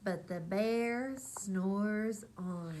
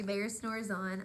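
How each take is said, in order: First: Drawn-out, sleepy refrain line; slow refrain. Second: Said in the usual way. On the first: A narrator's reading. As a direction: stretch it out like a lullaby. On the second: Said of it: "So that was our story".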